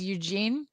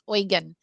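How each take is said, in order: First: The name sounds like the English name Eugene. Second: The name sounds unlike the English name Eugene. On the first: The speaker calls it wrong. "I read it as Eugene, ... I was pronouncing it incorrectly" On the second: The speaker calls it right. "but it's Eugen"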